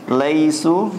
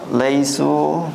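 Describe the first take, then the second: The two takes are said the same way.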